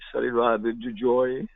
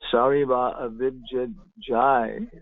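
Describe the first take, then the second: First: The last word ends with an 'oy' vowel. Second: The last word ends with an 'ai' vowel. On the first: "they say joy" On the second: "they don't say Jaya"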